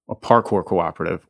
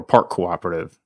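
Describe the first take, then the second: First: It is said fully, with every syllable clear. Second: It is said quickly, the words blended together.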